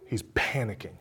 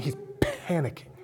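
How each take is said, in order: First: Said in the usual way. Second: Breathy whispered "panicking". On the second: Shown as a demonstration.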